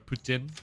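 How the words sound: It is said with a French pronunciation.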